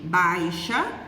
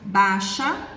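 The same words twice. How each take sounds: First: The i glide is clearly pronounced, 'bai-xa'. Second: The i glide is dropped, like 'baxa'. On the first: The speaker calls it right. "ao invés de baixa" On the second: The speaker calls it wrong. "às vezes pronunciamos baixa"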